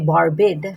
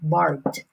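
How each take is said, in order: First: The ending is not a plain d sound. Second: The ending is a plain d sound. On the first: The speaker calls it wrong. "we don't say barbed" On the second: The speaker calls it right. "So you use the sound d"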